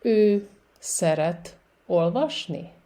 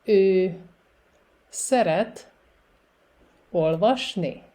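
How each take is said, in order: First: Careful demo with shorter gaps; a little faster. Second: Each word alone, long gaps between; slow repetition. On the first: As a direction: move through the words a bit quicker, still measured. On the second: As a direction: dictate it slowly for beginners. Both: Shown as a demonstration. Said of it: "And a little faster".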